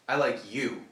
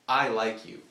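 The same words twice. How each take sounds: First: The stress is on "you". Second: The stress is on "I".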